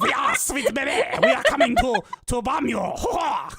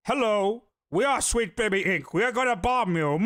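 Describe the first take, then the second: First: High, giggly mock Canadian French; hammed-up French-Canadian villain breaking into laughter; Canadian French accent. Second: Mock villain, capped with an evil laugh; bomb threat caller. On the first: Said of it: "probably said it in a Canadian French accent". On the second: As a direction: announce it like a cartoon villain and cackle.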